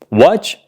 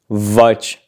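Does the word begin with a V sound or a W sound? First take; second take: W sound; V sound. First: The word begins with a rounded W sound. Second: The word begins with a buzzing V sound. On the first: The speaker calls it right. "W is pronounced W" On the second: The speaker calls it wrong. "We don't say"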